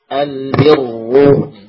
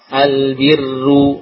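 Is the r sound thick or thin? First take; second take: thick; thin. First: The r is thick and heavy. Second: The r is thin and light. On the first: The speaker calls it right. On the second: The speaker calls it wrong. "ini tipis"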